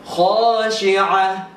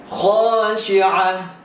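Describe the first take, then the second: The two takes are said the same way.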